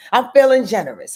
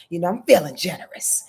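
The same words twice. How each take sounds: First: "feeling" punched, the whole line louder; louder playful repeat. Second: Said in the usual way. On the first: Real, not acted. Host offering viewers an extension, louder teasing "I'm feeling generous". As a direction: say it again, bigger and teasing.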